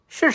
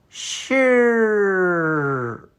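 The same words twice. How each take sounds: First: The word is said quickly and smoothly. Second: The word is drawn out very slowly. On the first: "Now in fluency you can say" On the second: "Let me say this sound in slow motion"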